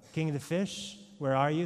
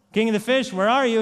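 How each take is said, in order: First: Said in the usual way. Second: Loud call across the water. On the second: Acted. Fisherman calls the king of the fish over the ocean, loud call. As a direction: shout out to sea for the king.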